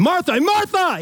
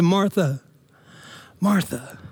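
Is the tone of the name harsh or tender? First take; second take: harsh; tender. First: The name is called out in a harsh tone. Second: The name is said in a soft, tender tone. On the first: The speaker is scolding and impatient. The speaker calls it wrong. "He's not doing that" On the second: The speaker is loving and drawing her close. The speaker calls it right. "There's such a tenderness there"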